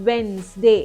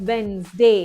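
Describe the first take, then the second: Both takes have the same delivery.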